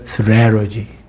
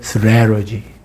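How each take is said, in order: First: It is said in an American English style. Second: It is said in an American English style.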